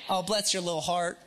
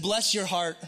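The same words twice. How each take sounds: First: Lightly put-on old Southern accent. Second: Said in the usual way. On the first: Shown as a demonstration. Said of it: "with an old Southern accent". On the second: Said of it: "have to say it with".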